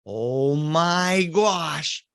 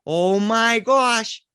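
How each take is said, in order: First: Very slow, drawn out oh my gosh; slow awed gasp. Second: Higher, louder slow oh my gosh; kids gasping. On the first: Uncle peeking at the house, slow awe. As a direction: stretch each word in dread. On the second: Cousins peeking around corner, higher gasp. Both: Retold or imitated.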